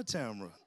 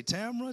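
First: Name dropped much lower and softer; low falling answer. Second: Name lifted high with a rise; rising call. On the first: Pastor calling his wife, low falling second call. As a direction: bring the second Tamara down low. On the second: Pastor calling his wife, high rising call. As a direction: sing the first Tamara up. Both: Acted. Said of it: "I like to say".

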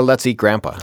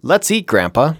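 First: "Let's eat Grandpa" run together with no pause; no comma. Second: Let's eat, Grandpa with a clear pause before Grandpa, rising; comma pause. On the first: Sharing the classic comma joke, run together with no pause. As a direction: say it as if eating Grandpa. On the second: Sharing the classic comma joke with Dave, a pause before Grandpa. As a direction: address Grandpa after a pause. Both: Shown as a demonstration. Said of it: "the classic example of".

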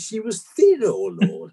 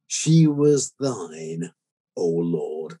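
First: 'thin' said short, without the long 'thine' sound; misspelt epitaph. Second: 'thine' said slowly and solemnly, clearly pronounced; reverent quote. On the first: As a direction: read out 'thin' high and sharp, as a mistake. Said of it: "you missed the E out". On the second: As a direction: stretch out 'She was thine' like a prayer. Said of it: "I'd like you to put something like that on". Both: Retold or imitated.

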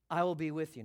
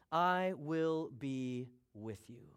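First: Said in the usual way. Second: Drawn-out "I will be with you", word by word; slow, weighty promise. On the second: Acted. Preacher reading God's promise to Moses, slow and weighty. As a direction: give every word weight, very slowly.

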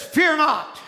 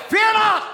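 First: Said in the usual way. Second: FEAR NOT shouted high and loud; commanding shout. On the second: Acted. Quote repeated as a shout.

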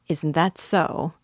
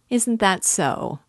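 First: Slow, sly, stress on "that"; a slow knowing probe leaning on "that"; sly smile. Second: Higher, slow, pressing on "Isn't"; sly persistence. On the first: Svidrigaïlov probing Raskolnikov's motives, slow and sly. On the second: Svidrigaïlov pressing Raskolnikov a second time, higher and slyly insistent. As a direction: push harder, teasing, lifting "Isn't". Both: A narrator's reading. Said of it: "persisted Svidrigaïlov with a sly smile".

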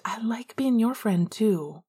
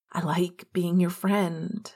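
First: Relieved. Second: Said in the usual way. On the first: A narrator's reading. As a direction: breathe it out with relief.

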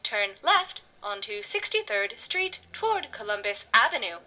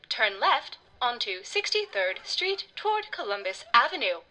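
First: Slow, even robotic voice, firmer; insistent GPS voice. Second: Slow, even robotic navigation voice; GPS voice. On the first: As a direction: repeat the directions firmly like an app. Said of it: "Miss Googleheimer insisted". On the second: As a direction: speak like a maps app. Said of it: "said Miss Googleheimer". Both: A narrator's reading.

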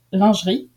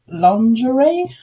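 First: "lingerie" said the French way, ending in -ee; French pronunciation. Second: "lingerie" said the English way, ending in -ay; English pronunciation. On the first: French listener teaching the hosts, "lingerie" in French pronunciation. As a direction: say "lingerie" as a native French speaker. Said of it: "is pronounced lingerie in French". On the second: French listener contrasting for hosts, "lingerie" in English pronunciation. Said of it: "how you say it in English". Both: Shown as a demonstration.

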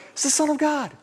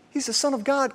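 First: Even higher, insistent reveal; high insistent blurt; eager insider. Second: Higher, bursting to tell the secret; like blurting out what you know; high, eager aside to the crowd; eager insider. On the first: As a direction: tell them again, more urgent. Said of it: "And we're like". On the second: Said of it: "And all along we're like". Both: Retold or imitated.

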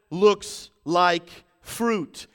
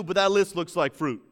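First: Very slow, loud, word by word; weighty, spaced-out preaching; slow emphasis. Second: Said in the usual way. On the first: Real, not acted. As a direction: let each word land separately. Repeated slowly for weight.

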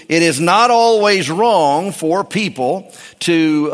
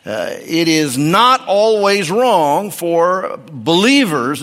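First: "it is not always wrong" spaced out slowly with weight on "always"; slow stressed point. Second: "not always wrong" spaced out slowly with weight on "not"; slow stressed point. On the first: Preacher to congregation, slowly stressing "always". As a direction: lean on "always", slow and deliberate. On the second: Preacher repeating his point, slowly stressing "not". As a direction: lean on "not", slow and deliberate. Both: Shown as a demonstration.

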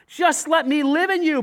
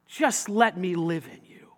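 First: Louder, higher appeal on let; urgent repeat. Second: Gentle plea. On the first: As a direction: press the invitation out loud. Same invitation repeated, raised. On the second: Jesus' gentle invitation, first take. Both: Acted.

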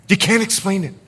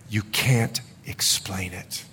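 First: Higher-pitched, brisker repeat at speaking volume; emphatic, pitched up; raised insistence. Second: Slow, low and very soft; hushed awe. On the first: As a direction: lift the voice and insist. Same line repeated, voice raised. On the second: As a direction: drop to a slow near-whisper. Repeats line for effect, hushed first. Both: Real, not acted.

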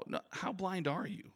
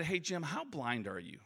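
First: Higher, slower, with "blind" rising; insistent repeat. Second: Said in the usual way. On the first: Retold or imitated. Repeating the question to Jim, higher and insistent on "blind". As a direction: press the word "blind" and lift it into the question. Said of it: "and I said".

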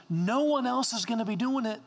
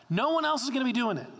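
First: Said in the usual way. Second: Higher and fast, driving it home; a preacher hammering the point home to the congregation; emphatic repeat. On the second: Shown as a demonstration. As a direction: push it harder the second time. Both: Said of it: "repeated for emphasis".

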